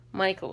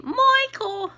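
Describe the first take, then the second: First: Said in the usual way. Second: Put-on high squawked sitcom accent; Edith Bunker. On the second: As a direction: call the name shrilly in a hammed-up accent. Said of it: "I was always doing that accent".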